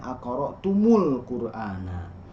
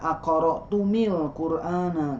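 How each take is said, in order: First: The m is followed by a u vowel. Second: The m is followed by an i vowel. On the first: The speaker calls it right. "tapi dibacanya akoro tumul Qur'ana" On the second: The speaker calls it wrong. "juga tidak dibaca"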